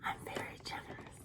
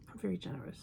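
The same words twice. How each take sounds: First: Unvoiced whisper of I'm very generous; hushed confiding I'm very generous. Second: Said in the usual way. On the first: Shown as a demonstration. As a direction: breathe it like a secret to the viewers.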